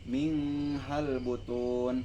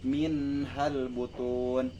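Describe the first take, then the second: First: The n is blurred into the next sound. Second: The n is pronounced clearly and separately. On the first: The speaker calls it wrong. "bukan min hal butun" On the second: The speaker calls it right. "tetapi min hal butun"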